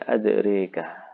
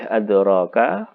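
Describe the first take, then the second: First: The vowel after the r is tilted toward e. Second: The vowel after the r is a plain open a. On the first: "membaca fathah dan imalah" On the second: "membaca fathah dan imalah"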